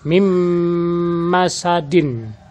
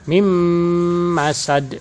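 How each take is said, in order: First: The final vowel ending is pronounced. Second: The final vowel ending is dropped. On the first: This is the full written form. "kalimat asli" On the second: This is how it is read when stopping. "cara membacanya"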